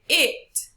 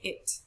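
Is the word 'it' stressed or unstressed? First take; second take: stressed; unstressed. First: The word is stressed with higher pitch. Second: The word is unstressed and said plainly. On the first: The speaker calls it wrong. "We don't say it" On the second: The speaker calls it right. "We just say it. So because of this, it has no stress on it"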